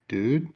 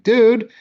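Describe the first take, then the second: First: It sounds alarmed and questioning. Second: It sounds annoyed and indignant. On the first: Something frightening has just been revealed. "there's an axe murder in the closet" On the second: Someone has been wronged. "You took my lunch money"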